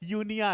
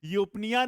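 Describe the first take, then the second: First: The p sound is left out. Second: The p sound is clearly pronounced. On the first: The speaker calls it right. "पी silent है" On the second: The speaker calls it wrong. "यूपनिया नहीं है बेटा"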